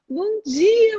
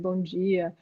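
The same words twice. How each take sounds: First: The greeting is said lively, with much energy. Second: The greeting is said flat, with little energy. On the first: The customer stops to listen. The speaker calls it right. "Ela sente a sua energia" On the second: The customer loses interest and has no time. The speaker calls it wrong. "com aquele jeito"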